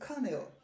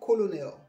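First: The word is said with two syllables. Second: The word is said with three syllables. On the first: The speaker calls it right. "it is colonel" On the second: The speaker calls it wrong. "this one is not colonel"

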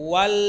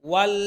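No difference in how they are said.

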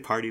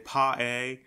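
First: It is said in a plain American accent. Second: It is said in an English accent. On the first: "They don't say party" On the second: "English and Aussie, they don't say so. They say pa-a"

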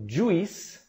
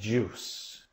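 First: The vowel is split into two separate sounds. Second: The vowel is a single long u sound. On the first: The speaker calls it wrong. "não juice" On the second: The speaker calls it right. "mas juice"

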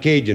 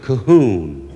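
First: The word is said with an English pronunciation. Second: The word is said with a Spanish-style pronunciation. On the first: "In English, you pronounce that Cajun" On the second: "And in Mexican, you pronounce it Cajun"

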